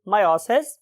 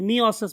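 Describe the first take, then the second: First: The first syllable sounds like 'my'. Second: The first syllable sounds like 'mee'. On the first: "what ever you want to pronounce" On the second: "बहुत से लोग इसे मियोसिस भी बोलते हैं"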